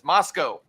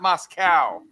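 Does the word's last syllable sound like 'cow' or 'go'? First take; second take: go; cow. First: The last syllable rhymes with 'go'. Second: The last syllable sounds like 'cow'. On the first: The speaker calls it right. "but it's Moscow" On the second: The speaker calls it wrong. "putting a cow in Moscow"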